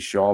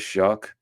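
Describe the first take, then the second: First: The name ends in an open 'aw' vowel. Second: The name ends in a short 'uck' sound. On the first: The speaker calls it wrong. "you think it'd be Shaw" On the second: The speaker calls it right. "but it is Shuck"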